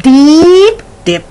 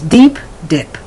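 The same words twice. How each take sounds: First: The vowels are drawn out and exaggerated. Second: The vowels are short and natural. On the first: The speaker calls it wrong. "we don't say deep dip" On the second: The speaker calls it right. "It's deep dip"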